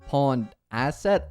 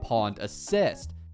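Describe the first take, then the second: First: The second word sounds like asset. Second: The second word sounds like assist. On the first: The speaker calls it right. "It's actually called Pond Asset" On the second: The speaker calls it wrong. "I mispronounced this"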